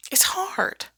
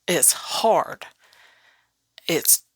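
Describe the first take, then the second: First: Said in the usual way. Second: Whispered, heavy truth; hushed admission. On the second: Acted.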